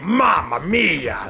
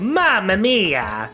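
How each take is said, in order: First: It is said in a Wario voice. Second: It is said in a Luigi voice.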